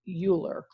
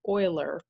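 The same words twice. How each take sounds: First: It follows the name's written spelling. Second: It follows the name's accepted spoken form. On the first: "it's spelled like Euler, or at least that's how I would want to say it" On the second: "it's pronounced like Euler"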